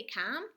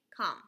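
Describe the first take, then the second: First: Com said "kahm", rhyming with Tom; com with open vowel. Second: Short "uh" vowel in come. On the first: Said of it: "that's what it sounds like". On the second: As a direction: come said "kum", rhyming with hum. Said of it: "sometimes it's gonna say come". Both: Shown as a demonstration.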